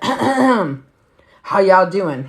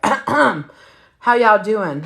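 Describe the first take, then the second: First: Put-on slow, drawn-out drunk greeting; lazy drunk hello; drunk boyfriend greeting. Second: Put-on slow, drawn-out drunk hello; tipsy mic greeting; drunk greeting again. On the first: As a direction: stretch it out like a tipsy guy at the mic. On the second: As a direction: drag every word like he's wasted. Drunk boyfriend greets family.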